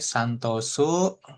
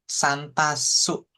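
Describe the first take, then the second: First: The second syllable is said as 'to'. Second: The second syllable is said as 'ta'. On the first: The name is said as its owner says it. "rambut hitam bilang namanya Santosu" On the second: Another person says the name differently. "Tok jadi tak gitu ya"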